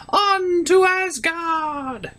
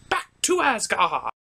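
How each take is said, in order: First: "On to Asgard" high and very slow; grand slow proclamation. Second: Said in the usual way. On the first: Acted. Second take, grand and slow.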